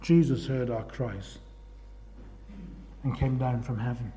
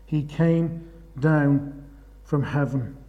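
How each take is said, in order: First: Softer and lower, slowing to a hush; hushed awe. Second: "He came down" drawn out very slowly, then "from heaven" dropped low; slow emphatic repeat. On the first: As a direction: let it fall quiet and reverent. Quiet awe over Jesus coming. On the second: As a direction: lean on every word of "He came down from heaven". Repeats line with weight. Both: Real, not acted.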